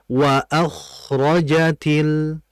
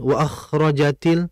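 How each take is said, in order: First: The phrase is said at a slower tempo. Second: The phrase is said too quickly. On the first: The speaker calls it right. "Yang betul" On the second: The speaker calls it wrong. "jangan terlalu cepat"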